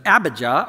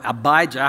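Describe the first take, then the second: First: Abijah stressed on the first syllable, AB-ih-juh; first pronunciation variant. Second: Abijah stressed on the middle syllable, uh-BY-juh; second pronunciation variant. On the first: Preacher offers congregation one way to say the name, Abijah as AB-ih-juh. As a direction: say Abijah with short vowels, AB-ih-zhuh. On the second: Preacher offers congregation the other way to say the name, Abijah as uh-BY-juh. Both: Shown as a demonstration. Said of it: "however you like to pronounce it".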